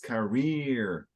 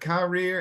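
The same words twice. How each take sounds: First: The stress is on the second syllable. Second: The stress is on the first syllable. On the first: The speaker calls it right. "this is an exception" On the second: The speaker calls it wrong. "Most English words, emphasis up front"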